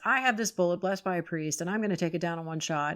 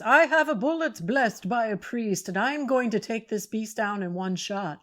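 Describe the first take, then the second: First: It is said in the speaker's normal voice. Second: It is said in a put-on foreign accent.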